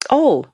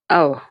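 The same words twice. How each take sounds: First: It sounds genuine and pleased. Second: It sounds bitter and resentful.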